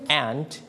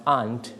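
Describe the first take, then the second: First: "aunt" with the short a of cat; American pronunciation. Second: "aunt" with a long open ah vowel; British pronunciation. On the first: Teacher explains styles to class, American pronunciation. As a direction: say "aunt" just like the insect ant, American-style. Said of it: "that means you use American style". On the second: Teacher explains styles to class, British pronunciation. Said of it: "you use the British". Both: Shown as a demonstration.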